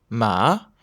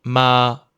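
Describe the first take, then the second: First: "ma" dipping low, then rising; Thai rising tone. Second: "ma" said slow and level, mid pitch; Thai mid tone. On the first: Teacher models the Thai rising tone of "ma" (dog) for learners. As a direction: let "ma" dip and climb in the rising tone. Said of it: "il se prononce avec un ton montant". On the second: Teacher models the Thai mid tone of "ma" for learners, slow and level. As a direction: hold "ma" flat in the mid tone. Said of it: "Par exemple, on a un ton moyen". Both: Shown as a demonstration.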